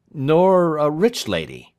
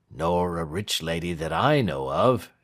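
First: High, loud, slow query; pressing question. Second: Client's calm answer. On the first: Lawyer pressing client on his love, high and insistent. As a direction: press the point with raised voice. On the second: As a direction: concede it without any excitement. Client answers the lawyer's question. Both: A narrator's reading.

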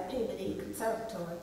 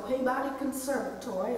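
First: Peabody Conservatory run together quickly, softer, as locals say it; local pronunciation. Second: Said in the usual way. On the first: Retold or imitated. Speaker echoing how they say the school's name, Peabody Conservatory in quick local pronunciation. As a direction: say "Peabody Conservatory" quick and low-key, like an insider. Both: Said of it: "or as they say".

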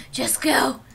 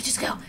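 First: Whispered, breathless urging; pleading whisper at the ball; tense whisper. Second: Said in the usual way. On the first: Real, not acted. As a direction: whisper it so as not to jinx it. Willing the catch to work.

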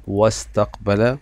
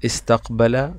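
First: "واستقبل" joined as wastaqbala; silent alif. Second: "استقبل" said alone as istaqbala; initial alif sounded. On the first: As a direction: glide from wa into the s of "واستقبل". (نطق «واستقبل» موصولة دون همزة) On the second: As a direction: open "استقبل" on an i vowel. (نطق «استقبل» منفردة بألف منطوقة) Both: Shown as a demonstration. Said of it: "الهمزة لم تظهر معي في النطق".

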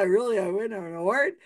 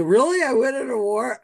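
First: Said in the usual way. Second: Put-on louder, higher, thrilled drunk disbelief; drunk delight. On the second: Drunk man thrilled by host's award, loud delight. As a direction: sell the surprise of winning. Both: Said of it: "Okay, so".

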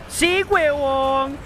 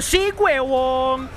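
First: Triumphant cheer again. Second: Triumphant cheer. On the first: Gamer repeating his survival cheer, slow triumphant yell. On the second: Gamer cheering after surviving the fight, dragged-out triumphant yell. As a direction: stretch it out and celebrate. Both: Real, not acted.

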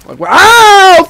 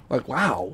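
First: High, loud, stretched-out wail; loud, rising outburst; loud wow. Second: Low, very soft aside; hushed, low reaction; quiet, underwhelmed. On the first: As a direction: blow the WOW up into a long yell. Same reaction blown up loud. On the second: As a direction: say it almost under your breath. Muttered reaction, repeated louder after. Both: Real, not acted.

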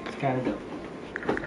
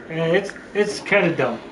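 First: Slow breathy whisper. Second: Said in the usual way. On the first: Real, not acted. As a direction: whisper it under your breath. Whispered repeat.

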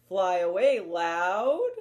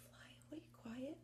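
First: Much louder call. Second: Whispered, much softer; hushed whisper. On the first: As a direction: call it out like the loud owl. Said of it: "the other named Loud". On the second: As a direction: whisper it like the quiet owl. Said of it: "One named Quiet". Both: Shown as a demonstration.

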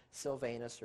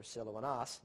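First: Silvanus as sil-VAY-nus; English Silvanus with a long A in VAY; anglicized pronunciation. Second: Silvanus as sil-oh-ah-NAHS; Greek-sounding Silvanus with open AH vowels; Greek pronunciation. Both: Shown as a demonstration. Contrasting both forms of name.

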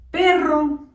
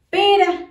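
First: "perro" with rolled rr; strong rr. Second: "Pera" with single tapped r, louder, higher; soft r. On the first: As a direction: roll the rr in "perro" firmly. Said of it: "voy a escribir la palabra". (erre fuerte en "perro") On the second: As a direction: tap the r in "Pera" lightly. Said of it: "va a sonar suavecita". (erre suave en "Pera") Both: Shown as a demonstration.

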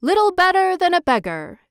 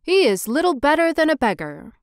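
First: Much higher, louder eager echo; hammed-up chorus of yes-men; councilors' echo. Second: Higher, scornful mayor; a hint of a sniffy mayor; mayor's verdict. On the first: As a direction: copy the mayor's words keenly. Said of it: "said the town councilors". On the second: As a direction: look down on the statue. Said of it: "said the mayor".

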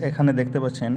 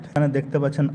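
Both takes have the same delivery.

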